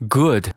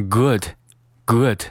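First: "good" with a long, tense oo; "good" mispronounced with a drawn-out vowel; wrong long vowel. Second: "good" with a short, relaxed oo; short-vowelled "good", slowly repeated; correct short vowel. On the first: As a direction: stretch "good" into a mistaken "gooood". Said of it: "不要读成good". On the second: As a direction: keep "good" brief and lax. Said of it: "是good". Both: Shown as a demonstration.

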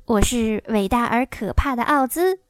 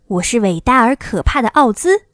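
First: Understated timid little man; a touch of nervous wavering; mildly trembling. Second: Loud, commanding wizard's proclamation; lightly voiced imposing wizard; stern Oz. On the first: Acted. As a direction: announce yourself meekly, without the boom. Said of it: "小个子男人声音发抖地说". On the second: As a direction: announce yourself with solemn authority. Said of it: "一个严肃的声音".

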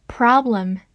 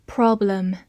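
First: "problem" in an American accent; American pronunciation. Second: Said in the usual way. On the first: Shown as a demonstration. Teacher showing learners the word "problem", American pronunciation. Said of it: "美式发音".

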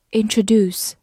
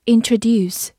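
First: "introduce" with the last syllable as "doos"; alternative pronunciation. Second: Said in the usual way. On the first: Shown as a demonstration. Teacher giving learners another reading, "introduce" ending in "doos". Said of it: "或者读作".

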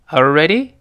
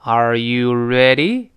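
First: "Are you ready" run together, rising on ready; casual linked question, up at the end; quick natural reading. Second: "Are you ready" drawn out, full "you", rising on ready; slow teaching demo with a clear "you"; slow full reading. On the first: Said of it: "读快之后". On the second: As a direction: spell out each word slowly for learners. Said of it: "读快之后，那个you又自然会发生元音的弱化". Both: Shown as a demonstration.

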